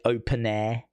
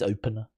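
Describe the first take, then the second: First: The name ends with a clear 'air' sound. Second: The name ends with a weak 'er' sound. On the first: This is how the locals say it. "I think they pronounce it" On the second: This is how the name is spelled. "but it's"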